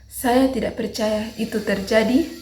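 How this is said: The voice is hesitant, rising at the end. "nada bingung. Kita menggunakan nada ragu-ragu naik di akhir"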